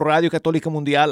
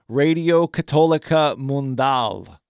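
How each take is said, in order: First: It is said with a native Spanish accent. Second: It is said with an American English accent.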